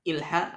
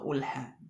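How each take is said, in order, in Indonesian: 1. Kata itu diawali dengan vokal i. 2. Kata itu diawali dengan vokal u. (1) "tidak ilha" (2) "atau ulha"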